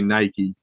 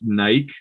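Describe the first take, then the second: First: The name is said the English way. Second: The name is said the Greek way. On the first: "in English we say Nike" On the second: "it is actually pronounced Nike in like in Greek mythology"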